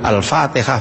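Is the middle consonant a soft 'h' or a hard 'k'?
h. The word has a soft breathy 'h' sound. The speaker calls it right.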